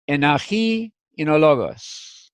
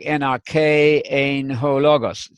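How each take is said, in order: First: It uses modern Greek pronunciation of the words. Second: It uses Erasmian pronunciation of the words. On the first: The speaker calls it right. "In the modern Greek pronunciation, you'd go" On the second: The speaker calls it wrong. "In the Erasmian, it would be something like"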